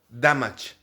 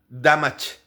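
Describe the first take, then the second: No difference in how they are said.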